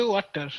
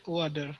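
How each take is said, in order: First: "water" in an Indian accent, with a hard T. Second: "water" imitating an American, T softened to D; imitated American accent. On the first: Shown as a demonstration. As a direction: say "water" the Indian way, T fully sounded. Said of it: "I, we say water". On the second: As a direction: copy the American "water", lower. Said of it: "like you said".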